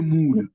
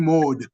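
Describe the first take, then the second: First: The vowel is a long 'oo' sound. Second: The vowel is a short 'o' sound. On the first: The speaker calls it right. "it still come out like U. You say mood" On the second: The speaker calls it wrong. "It doesn't come out like O. You don't say mod"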